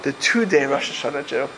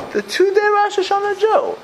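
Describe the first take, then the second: First: Said in the usual way. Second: High, sing-song mocking of the nickname. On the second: Rabbi mocking a congregant's nickname, sing-song and high. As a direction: toss out the label like a playground taunt.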